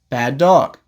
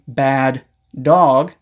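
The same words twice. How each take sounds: First: The two words are linked together. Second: The two words are said separately. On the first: "you can say" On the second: "Instead of saying"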